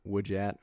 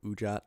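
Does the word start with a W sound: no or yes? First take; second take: yes; no. First: The word begins with a W sound. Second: The word begins with a plain vowel. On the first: The speaker calls it wrong. "Not Wujat" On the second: The speaker calls it right. "I said it correctly this time"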